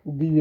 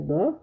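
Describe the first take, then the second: First: The word is said with an ee vowel. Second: The word is said with a short neutral vowel. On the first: The next word begins with a vowel. "जब किसी वाउअल word के पहले आएगा" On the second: The next word begins with a consonant. "कंसोनेंट word के पहले आता है तो इसको द पढ़ेंगे"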